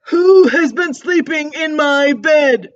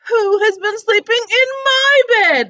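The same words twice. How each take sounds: First: It is roared loudly, like Papa Bear. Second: It is exclaimed, like Mama Bear.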